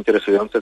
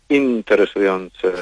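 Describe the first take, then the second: First: The stress is on the penultimate syllable. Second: The stress is on the first syllable. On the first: The speaker calls it right. "nie interesujące" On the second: The speaker calls it wrong. "kiedy słucham wiadomości, to słyszę"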